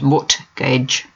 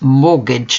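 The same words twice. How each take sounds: First: The word is said with a pronounced T. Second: The word is said with a silent T. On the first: The speaker calls it wrong. "not mortgage" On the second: The speaker calls it right. "do not pronounce the T, it's mortgage"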